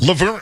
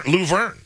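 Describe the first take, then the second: First: "Laverne" with a short, reduced first vowel, luh-VERN; corrected pronunciation. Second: "Luverne" with a full oo, loo-VERN; own pronunciation. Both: Shown as a demonstration. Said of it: "He said it's pronounced Laverne".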